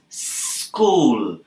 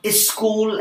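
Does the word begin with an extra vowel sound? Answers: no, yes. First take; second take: no; yes. First: The word starts directly with the s. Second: An extra vowel is added before the s. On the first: The speaker calls it right. "it's school" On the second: The speaker calls it wrong. "It's not is school as you said"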